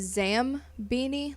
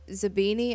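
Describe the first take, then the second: First: The name is said with an m sound. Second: The name is said without an m sound. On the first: The speaker calls it wrong. "I would uh, pronounce it as Zam Beanie" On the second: The speaker calls it right. "I think that's how you pronounce it"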